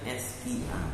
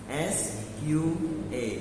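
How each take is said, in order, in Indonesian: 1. Hurufnya disebut dengan cara Indonesia. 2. Hurufnya disebut dengan cara Inggris. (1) "kalau sampean baca bahasa Indonesia" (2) "Kalau sampean bacanya bahasa Inggris"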